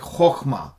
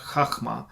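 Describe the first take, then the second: First: The first vowel is a rounded 'oh' sound. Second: The first vowel is an open 'ah' sound. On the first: The speaker calls it right. "It's like chokhma" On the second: The speaker calls it wrong. "not chachma"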